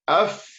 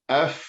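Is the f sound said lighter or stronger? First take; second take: stronger; lighter. First: The f is said more strongly and heavily. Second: The f is said lightly with air escaping. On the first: "Sekarang sabdukan. ... Lagi kuat. Lagi tebal" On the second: "Matikan. ... Keluar anginnya"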